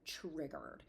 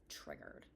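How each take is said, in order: First: Said in the usual way. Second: Breathless whisper, much lower and softer. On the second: Shown as a demonstration. Grieving mom mutters to herself about being set off, whispered. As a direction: whisper the word Triggered to yourself.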